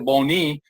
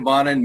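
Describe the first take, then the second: First: The surname is said with a French pronunciation. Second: The surname is said with an English pronunciation.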